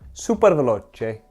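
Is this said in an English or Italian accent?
Italian. It is said in an Italian accent.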